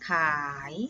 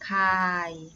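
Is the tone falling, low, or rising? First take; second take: rising; low. First: The syllable has a rising tone. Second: The syllable has a low tone. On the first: "จัตวาขาย" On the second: "ไม้เอกขาย"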